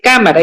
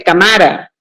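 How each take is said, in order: First: The stress is on the first syllable. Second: The stress is on the second syllable. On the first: "ya no dice cámara" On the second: "dice cámara"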